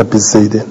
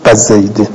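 First: بزیدن said "bezeydin", short e after b; بزیدن in the usual kasra form; bi-zaydin with kasra. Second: بزیدن said "bazaydin", short a after b; بزیدن in the rare fatha dialect form; ba-zaydin with fatha. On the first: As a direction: front vowel on the ب of بزیدن. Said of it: "نه". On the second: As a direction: open the ب of بزیدن with a. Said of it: "مررت بزیدن". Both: Shown as a demonstration.

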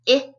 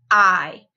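First: I as short "ih", as in kit. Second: I as long "eye", as in kite. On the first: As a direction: say I as a brief "ih" sound. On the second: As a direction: say I as a full "eye" vowel. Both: Shown as a demonstration. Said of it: "changing a short sound to a long sound".

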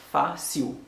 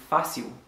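First: "fa, si ou" split as "fa... siu"; two separate syllables. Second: Said in the usual way. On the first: Shown as a demonstration. Teacher splitting a word for learners, separate syllables. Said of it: "se de son ke ou tande". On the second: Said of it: "sou ap di kòm sa".

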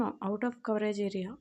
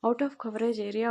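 First: Very slow, even automated message voice; same phone message again. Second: Slow, even automated operator voice; recorded phone message. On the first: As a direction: stretch every word like the network recording. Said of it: "same". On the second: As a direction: read it out like a phone network message, drawn out. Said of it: "అనే వస్తుంది". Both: Retold or imitated.

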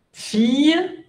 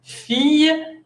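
First: "Fille" lifted high, feey with y glide; pronunciation demo. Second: "Fille" high again, feey with y end; pronunciation demo. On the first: Teacher presents "Fille" brightly to the class. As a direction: sing out "Fille" high, no l sound. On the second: Teacher spells and models "Fille" for students. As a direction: pitch "Fille" up, final ille as y. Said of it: "F I L L E". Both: Shown as a demonstration.

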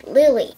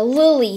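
First: "Lily" said as "Lih-lee", a short i in the first syllable; correct pronunciation. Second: "Lily" said as "Loo-lee", an oo in the first syllable; mispronounced name. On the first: Shown as a demonstration. Student correcting the teacher says "Lily" as "Lih-lee". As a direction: say "Lily" as "Lih-lee", showing how it should sound. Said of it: "it's pronounced Lily". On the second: Acted. Teacher calling roll mispronounces "Lily" as "Loo-lee". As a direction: read "Lily" as "Loo-lee", getting the vowel wrong. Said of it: "And it's pronounced Lily".

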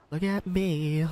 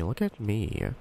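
First: High put-on cartoon voice; cartoon cat voice. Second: Said in the usual way. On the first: Then Garfield voice.

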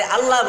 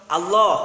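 First: আল্লাহ with an open a ending, "Alla"; Bengali pronunciation. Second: আল্লাহ ending in a rounded o, "Allo"; Arabic pronunciation. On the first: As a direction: say আল্লাহ as "Al-laa". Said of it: "বাংলায় আল্লাহ বলেছি". (বাংলা উচ্চারণে "আল্লা") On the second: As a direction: say আল্লাহ loudly as "Al-lo". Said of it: "আরবি উচ্চারণ হবে আল্লাহ". (আরবি উচ্চারণে "আল্লো") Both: Shown as a demonstration.

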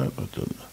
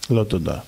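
First: לא תודה breathed out in a soft whisper. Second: Said in the usual way. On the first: Retold or imitated. The last date whispers her refusal to the groom, fading away. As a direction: let לא תודה fade to a whisper.

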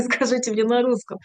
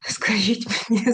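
First: Says it through a laugh. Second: Playful whispered aside, unvoiced. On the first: Real, not acted. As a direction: laugh while repeating the request. Repeats request, laughing. (зі сміхом) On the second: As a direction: whisper it like a secret to the audience. Teasing aside to audience. (грайливий шепіт)

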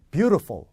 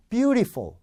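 First: Beautiful as "BYU-ruh-fol"; reduced middle vowel. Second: Beautiful as "byu-ree-fol"; flawed clear vowel. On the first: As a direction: hit the first syllable of beautiful, blur the middle. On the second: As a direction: keep a distinct "ee" inside beautiful. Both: Shown as a demonstration. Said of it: "분명히 달라요".

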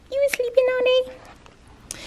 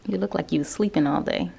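First: Much higher, teasing pet voice. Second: Said in the usual way. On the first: Real, not acted. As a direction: coo the question at the cat.

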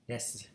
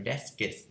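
First: "Desk" as a single syllable; one-syllable ending. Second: "desks" split as des-kis; extra-syllable wrong ending. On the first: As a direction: say "Desk" with no vowel added after the s. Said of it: "Mà là desk". (đọc "Desk" gọn một âm tiết) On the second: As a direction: say "desks" with an added vowel before the final s. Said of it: "không thể nào đọc là desks được". (đọc "desks" thừa một âm thành des-kis) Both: Shown as a demonstration.

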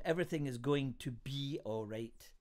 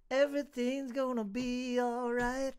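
First: Said in the usual way. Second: High, drawn-out singing; sung line. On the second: Shown as a demonstration. Host jokingly bursts into song on a poem's title, sung. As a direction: sing it out like a song refrain.

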